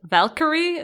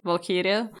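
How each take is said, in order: First: The name is said in an English way. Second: The name is said in a non-English way. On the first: The speaker calls it wrong. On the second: The speaker calls it right.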